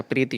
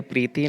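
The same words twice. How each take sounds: First: प्रीति with short final i; correct form. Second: प्रीति with long final "tee"; wrong form. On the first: Teacher giving the correction, प्रीति with brief last vowel. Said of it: "प्रीति होता है". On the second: Teacher rejecting a spelling, प्रीति ending in long "tee". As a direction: stretch the end vowel of प्रीति. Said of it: "प्रीति नहीं होता". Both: Shown as a demonstration.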